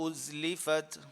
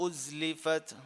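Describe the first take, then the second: The two takes are said the same way.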